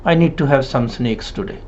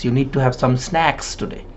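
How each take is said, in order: First: "snacks" mispronounced as "snakes"; closed-mouth "snakes" in place of "snacks"; mouth not opened. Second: "snacks" with a wide open "a"; clearly opened "snacks", not "snakes"; open-mouthed A. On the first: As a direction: narrow the vowel of "snacks" until it sounds like "snakes". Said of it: "they don't open their mouth properly". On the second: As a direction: drop the jaw on the vowel of "snacks". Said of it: "opening the mouth with the sounds of A". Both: Shown as a demonstration.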